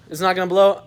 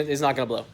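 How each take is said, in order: First: "It's not gonna blow" punched high and loud on blow; emphatic insistence. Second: Said in the usual way. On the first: Real, not acted. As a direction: hit blow hard, higher and louder. Insisting it won't break again.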